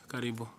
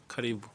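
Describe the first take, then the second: Both takes have the same delivery.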